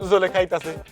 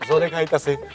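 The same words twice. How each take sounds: First: It is said in a laughing, smiling way. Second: It is said in a tearful, crying way.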